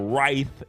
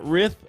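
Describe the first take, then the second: First: The word sounds like 'rife'. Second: The word sounds like 'rith'. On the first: The speaker calls it right. "So Rife is how you say it" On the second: The speaker calls it wrong. "not Rith"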